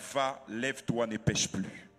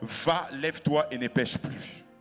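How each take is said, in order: First: It is said at normal volume. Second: It is said very loudly.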